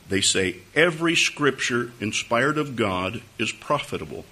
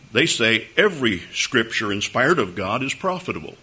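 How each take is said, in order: First: It is said slowly and deliberately. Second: It is said at a normal speed.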